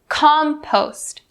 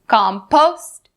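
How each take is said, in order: First: The stress is on the first syllable. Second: The stress is on the second syllable. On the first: The speaker calls it right. "the primary stress is upon the first syllable" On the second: The speaker calls it wrong. "We don't say compost, compost, not correct"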